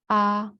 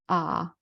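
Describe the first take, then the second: First: It is said in the first tone. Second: It is said in the third tone. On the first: "in order from the first tone"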